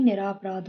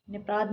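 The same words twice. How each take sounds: First: Said in the usual way. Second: निपराध run together without र; dropped syllable. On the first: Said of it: "होता है". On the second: Shown as a demonstration. Teacher mimicking what people say, dropped syllable. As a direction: swallow the middle of निपराध. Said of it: "बोलते क्या है?".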